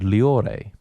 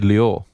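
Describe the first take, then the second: First: The final vowel is pronounced at the end. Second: The final vowel is dropped at the end. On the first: "I was taught to pronounce to the last vowel. So that'd be the E" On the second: "It could be"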